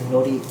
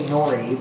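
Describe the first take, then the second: First: It is said with a Japanese pronunciation. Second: It is said with an English pronunciation. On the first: The speaker calls it right. "but it's actually nori" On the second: The speaker calls it wrong. "when you're speaking English, you say nori"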